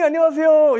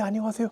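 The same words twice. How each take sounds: First: The greeting is loud and full of energy. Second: The greeting is quiet and shrinks away. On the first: The speaker holds the stronger position. The speaker calls it right. "목소리도 크게 낼 수 있고 기운이 있잖아요" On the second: The speaker feels intimidated. The speaker calls it wrong. "기어 들어가잖아요 목소리가"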